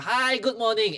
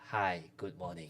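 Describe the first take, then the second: First: It is said with lively, positive energy. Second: It is said flatly, with low energy.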